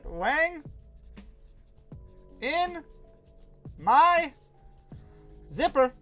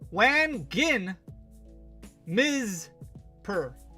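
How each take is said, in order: First: Each word is said separately with pauses. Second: The sounds are regrouped into odd syllables. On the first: "We'll just say it" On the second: "We'll mispronounce it"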